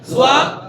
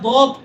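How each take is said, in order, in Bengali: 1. এটি z ধ্বনি দিয়ে শুরু হয়। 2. এটি d ধ্বনি দিয়ে শুরু হয়। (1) "কেমন জোয়াদ" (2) "এটা দদ এভাবে নয়"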